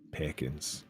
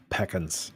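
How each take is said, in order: First: "Peckins" with a short ih in the first syllable; testing the vowel. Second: "Peckins" with an eh in the first syllable; Scottish-style vowel. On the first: Player rechecking the character's word, "Peckins" with an ih vowel. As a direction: say "Peckins" very softly, vowel closed to ih. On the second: Player copying the character's word, "Peckins" with an eh vowel. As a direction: say "Peckins" softly, vowel opened to eh. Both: Retold or imitated. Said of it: "a Scottish accent".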